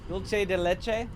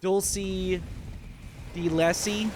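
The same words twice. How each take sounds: First: The phrase is pronounced in an ordinary way. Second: The phrase is pronounced in a deliberately odd way. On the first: "That's how I would pronounce it" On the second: "if I was trying to pronounce it funny"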